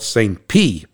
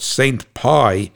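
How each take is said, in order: First: The last word rhymes with 'see'. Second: The last word rhymes with 'eye'. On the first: The speaker calls it right. "it's pronounced like P, P-E-A" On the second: The speaker calls it wrong. "I used to call it Saint Pie"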